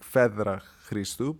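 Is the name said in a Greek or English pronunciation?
Greek. The name is said the Greek way.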